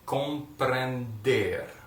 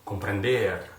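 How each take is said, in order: First: The word is said slowly, syllable by syllable. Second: The word is said at full normal speed. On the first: "Let's do it slowly, slowly, just slower than that" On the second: "Now let's go full speed now"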